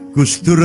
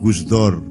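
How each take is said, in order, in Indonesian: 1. Vokal terakhirnya bunyi 'u' yang jelas. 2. Vokal terakhirnya bunyi 'o' terbuka.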